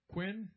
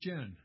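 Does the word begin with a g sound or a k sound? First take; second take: k sound; g sound. First: The word begins with a k-like sound. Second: The word begins with a g sound. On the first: "One is Quen, Q-E-N" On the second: "The other is Gen, G-E-N"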